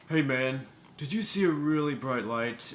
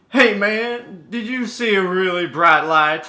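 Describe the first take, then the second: First: It is delivered in a wooden, unconvincing way. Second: It is delivered in a cheesy but believable way.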